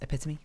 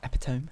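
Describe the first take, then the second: First: It is said with the standard pronunciation. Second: It is said the way it is spelled. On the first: The speaker calls it right. "it's pronounced epitome" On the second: The speaker calls it wrong. "It looks much more like epitome"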